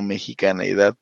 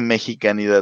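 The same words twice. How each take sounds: First: The word is said with an extra e sound. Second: The word is said without an extra e sound. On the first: The speaker calls it wrong. "no mexicanidad, porque somos mexicanos, no mexicaneos" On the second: The speaker calls it right. "Ahí sí se dice mexicanidad"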